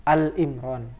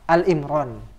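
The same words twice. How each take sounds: First: The first word is a single syllable, Al. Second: The same.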